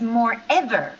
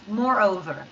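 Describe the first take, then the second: First: The second part sounds like 'ever'. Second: The second part sounds like 'over'. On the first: The speaker calls it wrong. "I hear your pronunciation is more ever" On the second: The speaker calls it right. "we say more and over, like two words"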